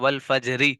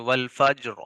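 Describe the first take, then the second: First: The r is light and followed by a vowel. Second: The r is heavy and ends the word. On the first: The reader continues without stopping. "रा पर जेर है" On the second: The reader stops on this word. "अब हम यहाँ पर रा को मोटा पढ़ेंगे"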